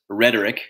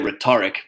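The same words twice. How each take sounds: First: It is said in an American accent. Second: It is said in the speaker's non-American accent.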